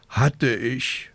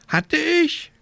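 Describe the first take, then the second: First: Sighing. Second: High croaking question; croaking raven. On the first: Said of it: "seufzte die kleine Hexe". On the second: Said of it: "krächzte Abraxas". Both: A narrator's reading.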